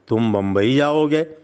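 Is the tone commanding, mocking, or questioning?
questioning. It sounds like a plain, genuine question. The listener is asked whether they intend to go. "इसका मतलब यह है कि क्या तुम्हारा बम्बई जाने का इरादा?"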